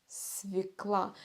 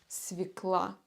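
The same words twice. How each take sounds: No difference in how they are said.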